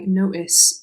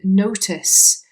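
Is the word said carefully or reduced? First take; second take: reduced; carefully. First: The word is said fast with sounds dropped. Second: The word is said carefully with every sound.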